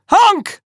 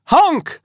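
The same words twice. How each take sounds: First: Much higher, louder honk; shriller screeching goose. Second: High, loud goose honk; screeching goose. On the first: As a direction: push the honk up into a shriek. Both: Acted. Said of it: "screeched the goose".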